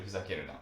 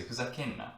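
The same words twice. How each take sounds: First: Fuzakeru na said in full, ru na clear. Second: Fuzakenna run together, nn held; contracted fuzakenna. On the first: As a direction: give every syllable of fuzakeru na. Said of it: "instead of". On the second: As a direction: say fuzakenna with a long nn. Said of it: "People would say". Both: Shown as a demonstration.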